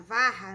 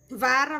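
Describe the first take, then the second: First: VARRA with a throaty, h-like R; double R. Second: VARA with a single tapped R. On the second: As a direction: say "vara" with a light tongue-flick R. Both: Shown as a demonstration. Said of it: "com R duplo".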